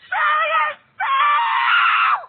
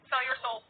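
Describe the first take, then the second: First: It is said louder, with more force. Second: It is said at a normal, quieter volume.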